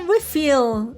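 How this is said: It is said with an English pronunciation. "refill em inglês"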